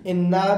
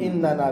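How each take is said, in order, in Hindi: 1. यह शब्द बिना अतिरिक्त 'नून' अक्षर के बोला जाता है। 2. यह शब्द अतिरिक्त 'नून' अक्षर के साथ बोला जाता है। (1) "ज्यादा इस्तेमाल है इन्ना" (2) "नून जमीर का नून है"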